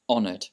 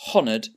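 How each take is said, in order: First: The word starts with no H sound. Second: The word starts with an audible H sound. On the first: The speaker calls it right. "the H is silent" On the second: The speaker calls it wrong. "So you don't say honoured"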